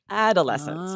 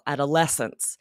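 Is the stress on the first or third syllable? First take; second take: first; third. First: The stress is on the first syllable. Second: The stress is on the third syllable. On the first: The speaker calls it wrong. "with the emphasis on that first syllable" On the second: The speaker calls it right. "syllable that's emphasized is that es in the middle"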